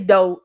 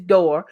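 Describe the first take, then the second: First: The final r sound is dropped. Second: The final r sound is pronounced. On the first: The speaker calls it wrong. "Don't say door" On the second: The speaker calls it right. "it's door"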